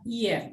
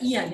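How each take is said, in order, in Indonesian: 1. Vokalnya terdengar seperti 'e'. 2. Vokalnya terdengar seperti 'a' terbuka. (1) "tapi dibaca ian" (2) "ini tidak dibaca ian ya"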